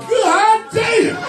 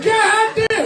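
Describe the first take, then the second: First: Amazed shout. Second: High God damn, pushed up; amazed exclaim. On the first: Man seeing his new shoes, amazed shout. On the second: Man admiring his shoes, amazed exclaim. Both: Retold or imitated.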